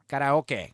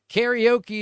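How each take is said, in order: First: It is said the Japanese way. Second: It is said the American way.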